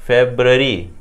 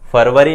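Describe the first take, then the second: First: It is said with a b sound, like Febru-ary. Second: It is said with a v sound, like Farvari. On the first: The speaker calls it right. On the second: The speaker calls it wrong. "फरवरी नहीं होता"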